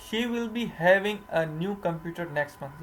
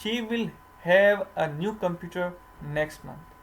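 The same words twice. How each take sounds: First: Slow, deliberate read of the wrong sentence; wrong version. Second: Slow, careful read of "She will have"; corrected version. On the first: Teacher reading the wrong sentence to students, slowly. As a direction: spell out "She will be having" slowly as the wrong example. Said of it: "ये बिल्कुल गलत है". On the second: Teacher giving students the corrected sentence, slowly. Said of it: "तो इसका क्या होगा?". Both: Shown as a demonstration.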